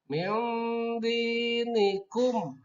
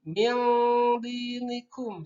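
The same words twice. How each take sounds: First: The n sound is softened but still faintly heard. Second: The n sound is hidden too much and lost. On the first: The speaker calls it right. "Jadi ada masih kedengaran nun matinya. Tapi disamarkan sedikit" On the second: The speaker calls it wrong. "Jangan seperti ini. Seperti itu masih salah. Meskipun samar tapi salah"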